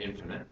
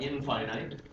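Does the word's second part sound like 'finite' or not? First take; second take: not like finite; like finite. First: The word is said with stress on the first syllable. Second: The word is said like 'in' plus 'finite'. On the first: The speaker calls it right. "we call it infinite" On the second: The speaker calls it wrong. "which we don't pronounce that way"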